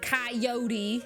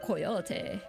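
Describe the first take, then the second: First: Coyote is said with the usual American pronunciation. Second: Coyote is said like the ending of Quixote. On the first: The speaker calls it wrong. "that American coyote nonsense" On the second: The speaker calls it right. "so it sounds similar to Quixote"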